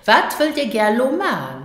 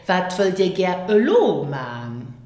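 First: It is said casually, words run together. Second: It is said carefully, word by word.

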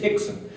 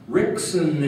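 First: The name begins with an H sound. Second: The name begins with an R sound. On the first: The speaker calls it right. "you don't pronounce the R, it's an H" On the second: The speaker calls it wrong. "But I was so stupid"

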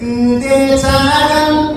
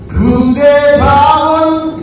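First: It is articulated lightly with only lips and tongue. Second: It is articulated with broad whole-mouth movement. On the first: "입술만, 그 다음에 혀부터만 하면은 바로 계속 톡 들게" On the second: "이렇게 하는 것은 입 전체로 발음을 하는 것이고"

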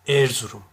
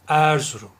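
First: The first E vowel is closed. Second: The first E vowel is open. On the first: "Erzurum dersem kapalı telaffuz etmiş olurum" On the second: "Peki açarsam Erzurum"

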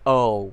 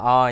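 First: The letter is said like the English name. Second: The letter is said like the Vietnamese name. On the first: The speaker calls it right. "mà ta sẽ đọc là O" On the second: The speaker calls it wrong. "O tròn Việt Nam, ta không đọc là O nha"

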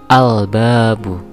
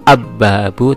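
First: The l sound is pronounced before the b. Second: The l merges into a doubled b sound. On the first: The speaker calls it right. "tetapi al-babu" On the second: The speaker calls it wrong. "tidak dibaca ab-babu"

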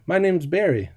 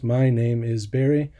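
First: The words 'name is' are contracted into one word. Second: The words 'name is' are said in full as two words. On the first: It sounds natural and relaxed. The speaker calls it right. "it's much shorter, faster, easier" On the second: It sounds stiff and robotic. The speaker calls it wrong. "I sound a little bit like a robot there"

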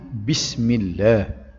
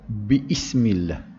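First: The word runs together without a glottal stop. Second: A glottal stop separates 'bi' from 'ismillah'. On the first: The speaker calls it right. "Dalilnya bismillah" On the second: The speaker calls it wrong. "Tidak dibaca biismillah"

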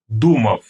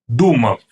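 Both takes have the same delivery.

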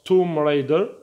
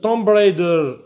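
First: The b at the end of Tomb is silent. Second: The b at the end of Tomb is pronounced. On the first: The speaker calls it right. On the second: The speaker calls it wrong.

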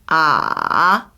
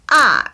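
First: The syllable carries the third tone. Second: The syllable carries the fourth tone. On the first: "3성" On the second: "4성"

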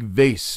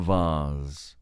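First: The word is said in a plain, everyday way. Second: The word is said in a posh, highbrow way.

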